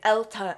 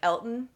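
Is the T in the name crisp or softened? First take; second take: crisp; softened. First: The T is crisp and strongly released. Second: The T is soft and barely released. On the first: This is the odd way one character said it. "like really pronounce that T" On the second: This is the ordinary way to say the name. "You or I would normally just say"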